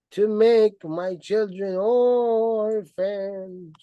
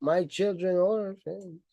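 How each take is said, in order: First: Slow, sneering repetition; slow mocking stress. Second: Said in the usual way. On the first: Shown as a demonstration. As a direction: draw out make my children orphans slowly.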